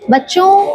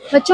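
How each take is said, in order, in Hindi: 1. यह अलग-अलग उतार-चढ़ाव वाले, जीवंत लहजे में बोला गया है। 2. यह एक ही सपाट, एक जैसे लहजे में बोला गया है। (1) "इसी बात को मैं बोलती हूँ अलग तरीके से" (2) "एक ही टोन में बात करो"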